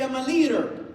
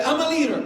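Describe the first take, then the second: First: Said in the usual way. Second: Call for the crowd to repeat. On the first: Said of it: "So somebody can say". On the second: Shown as a demonstration. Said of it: "Everybody say".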